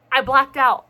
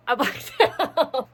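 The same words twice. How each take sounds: First: Said in the usual way. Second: Slow, laughing through blacked out. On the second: Real, not acted. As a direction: break into a laugh mid-phrase.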